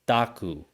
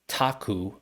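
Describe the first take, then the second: First: The first consonant is soft, closer to D. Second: The first consonant is a hard, puffed T. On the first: The speaker calls it right. "it's more of a D" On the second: The speaker calls it wrong. "I don't say taku"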